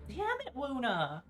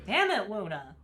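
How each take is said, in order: First: Higher, drawn-out exasperated whine; high whiny cry. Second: Loud angry yell; frustrated shout. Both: Acted.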